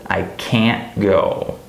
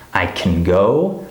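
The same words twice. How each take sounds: First: Slow, "can't" long with a full vowel; stressed can't. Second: "can" shrunk to "kn", weight on "go"; slow line, unstressed "can" before "go"; reduced can. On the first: Teacher contrasts can't with can, stressed can't. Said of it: "Do you hear the difference?". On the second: Teacher contrasts can with can't, reduced can. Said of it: "big difference between can and can't". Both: Shown as a demonstration.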